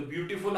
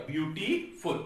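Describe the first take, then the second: First: Said in the usual way. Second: 'beautiful' with a break before फुल; syllable split. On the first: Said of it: "तो beautiful आपका". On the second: Shown as a demonstration. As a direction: say 'beautiful' in separated pieces. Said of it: "इस तरीके से बनेगा". ('Beautiful' को टुकड़ों में रुककर बोलें)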